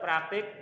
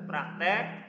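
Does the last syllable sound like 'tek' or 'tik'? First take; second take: tik; tek. First: The last syllable is said with an i vowel. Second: The last syllable is said with an e vowel. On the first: This is the standard form for formal use. The speaker calls it right. "Kosakata baku" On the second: This is the non-standard form for casual talk. The speaker calls it wrong. "kosakata tidak baku"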